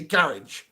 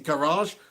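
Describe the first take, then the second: First: The word is said with a British accent. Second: The word is said with an American accent. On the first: "We say garage" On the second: "like the Americanism of it"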